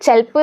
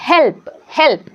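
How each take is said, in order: First: "ചെൽപ്പ്" said with a CH sound in place of H; wrong initial sound. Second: "ഹെൽപ്പ്" said slowly with a breath H at the start; correct H sound. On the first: Teacher shows learners how not to read help, "ചെൽപ്പ്" with initial CH. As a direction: misread the H as CH: "ചെൽപ്പ്". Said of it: "ചെൽപ്പ് എന്നല്ല പറയുക". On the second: Teacher models help for learners, slow "ഹെൽപ്പ്" with initial H. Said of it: "എന്താണ് പറയുക?". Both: Shown as a demonstration.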